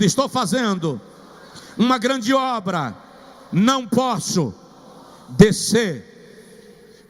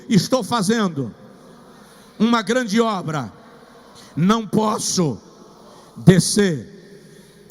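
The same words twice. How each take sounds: First: It is said with more life and energy. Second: It is said with ordinary, lower energy.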